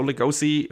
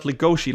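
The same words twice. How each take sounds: First: Lugosi with a plain "s" sound before the final "i"; non-Japanese pronunciation. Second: Legoshi with a "sh" sound before the final "i"; Japanese pronunciation. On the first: Podcaster linking the name to the Dracula actor, Lugosi said with "s". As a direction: say Lugosi as lu-GO-see, no "sh". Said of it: "the right pronunciation if you're not Japanese". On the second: Podcaster explaining the name's spellings, Legoshi said the Japanese way, with "sh". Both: Shown as a demonstration.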